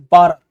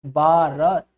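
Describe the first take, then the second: First: भारत said as बारत with no aspiration; English reading. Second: भारत with the full aspirated भ; Indian reading. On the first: Teacher mimicking an Englishman reading भारत. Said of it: "वो पढ़ेगा इसको". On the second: Teacher showing how Indians say भारत. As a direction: say भारत properly with a breathy भ. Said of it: "तो spelling क्या बनेगी इसकी". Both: Shown as a demonstration.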